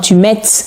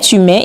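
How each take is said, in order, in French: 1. Le t final se prononce. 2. Le t final est muet. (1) "Ou bien tu mettes" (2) "On prononce"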